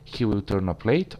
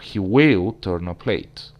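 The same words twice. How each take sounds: First: It is said in a plain, neutral way. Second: It is said with stress showing annoyance. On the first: It is a neutral statement of a habit. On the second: The habit annoys the speaker.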